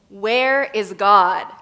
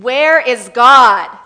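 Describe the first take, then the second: First: It is asked in a somewhat stern voice. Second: It is asked very sternly and loudly.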